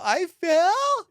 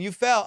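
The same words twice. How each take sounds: First: Very high, rising disbelief; incredulous. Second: Said in the usual way. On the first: Retold or imitated. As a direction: imitate her high-pitched shocked echo. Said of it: "With this tone".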